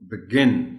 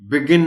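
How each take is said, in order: First: The stress is on the second syllable. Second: The stress is on the first syllable. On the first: The speaker calls it right. "you put stress on G, not B" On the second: The speaker calls it wrong. "Begin नहीं कहना इसको"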